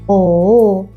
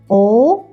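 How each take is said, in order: First: The pitch dips down, then rises. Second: The pitch rises like a question. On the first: "like shall we?" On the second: "like question what?"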